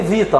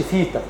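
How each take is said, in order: First: فيتا begun with a voiced v, "VEE-ta"; buzzed first consonant in فيتا. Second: فيتا begun with a plain f, "FEE-ta"; softer فيتا with an airy f; voiceless F. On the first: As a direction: say فيتا as Vita, teeth buzzing on the v. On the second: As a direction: say فيتا as Fita, no voicing on the first sound. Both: Shown as a demonstration. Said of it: "ما نقولش فيتا".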